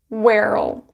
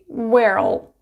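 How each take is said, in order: First: Will is contracted and joined onto where. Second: Will is contracted and joined onto where.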